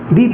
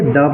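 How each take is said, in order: First: The vowel is a long 'ee' sound. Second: The vowel is a short 'uh' sound. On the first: It comes before a word starting with a vowel. "अगर T H E लग जाता है तो इसको हम लोग क्या पढ़ेंगे, दी पढ़ेंगे" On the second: It comes before a word starting with a consonant. "कॉन्सोनेंट है, इससे पहले अगर टी एच ई लग जाता है तो इसको हम लोग द पढ़ेंगे"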